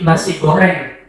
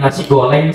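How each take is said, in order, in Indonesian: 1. Bunyi r-nya diucapkan dengan jelas. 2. Bunyi r-nya cadel, tidak digulung dengan jelas. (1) "dengan tidak cadel" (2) "Si cadel"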